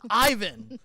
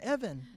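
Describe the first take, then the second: First: The name is pronounced like Ivan. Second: The name is pronounced like Evan. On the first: The speaker calls it right. "It's Ivan" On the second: The speaker calls it wrong. "the wrong pronunciation"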